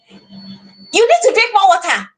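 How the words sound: It sounds harsh like an order.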